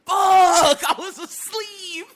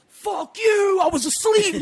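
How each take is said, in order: First: Loud high groan at waking, then a laugh; groggy exclamation. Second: Loud, high angry snap; angry fuck you. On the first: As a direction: curse at being woken, not at her. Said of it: "No, it was like". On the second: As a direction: shout it like an insult. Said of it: "It wasn't like". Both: Shown as a demonstration.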